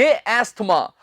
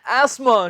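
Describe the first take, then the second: First: "एस्थमा" with a sounded "th"; "एस्थमा" as es-thma; wrong pronunciation. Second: "एस्मा" with silent "th"; "एस्मा", no t between s and m; correct pronunciation. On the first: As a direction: put a clear "th" into "एस्थमा". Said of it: "ना के". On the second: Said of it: "बिल्कुल सही है". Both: Shown as a demonstration.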